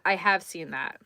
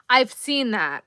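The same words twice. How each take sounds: First: I have seen that, with have firm; stress on have. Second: Said in the usual way. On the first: Shown as a demonstration. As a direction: have stressed with a falling tune.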